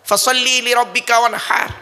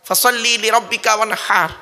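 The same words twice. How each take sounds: Both takes have the same delivery.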